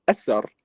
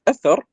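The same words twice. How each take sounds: First: أسر said with a plain s, asar; Persian-style أسر, th turned into s; Persian pronunciation. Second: أثر said with th, athar; أثر with a clear Arabic th sound; Arabic أثر, th not s; Arabic pronunciation. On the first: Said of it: "يقولون أسر". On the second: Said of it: "كلمة أثر يقولون أسر". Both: Shown as a demonstration.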